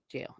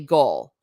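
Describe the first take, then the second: First: It begins with a j sound. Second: It begins with a hard g sound. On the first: This is the everyday pronunciation. "But basic jail" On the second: This is the older pronunciation. "Gaul, like the German tribe"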